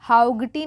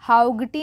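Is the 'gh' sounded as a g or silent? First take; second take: g sound; g sound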